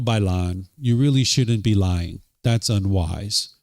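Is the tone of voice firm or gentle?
firm. The voice is firmer with a changed tempo. "Just firmed up my voice a little bit. Just changed the tone and the tempo a little bit"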